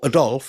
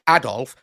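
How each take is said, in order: First: The name is said with an English pronunciation. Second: The name is said with a German pronunciation. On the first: "not Adolfo or Adolf" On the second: "he was like German called Adolf, and said it like that"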